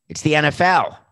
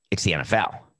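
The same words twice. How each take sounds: First: Louder, higher emphatic repeat. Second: Said in the usual way. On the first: Retold or imitated. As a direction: punch it out with a loud higher push. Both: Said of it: "and we said".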